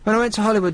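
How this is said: It is said in a put-on imitating voice.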